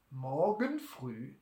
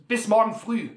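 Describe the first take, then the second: First: Slow, low, softer "Morgen früh"; doubting echo. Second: "morgen früh" said louder and higher, falling at the end; firm answer. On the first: Innkeeper questions Butler's promise, "Morgen früh" slow and sceptical. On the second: Butler promises the innkeeper repayment, "morgen früh" firm and loud. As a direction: state "morgen früh" firmly as a settled answer. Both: Acted.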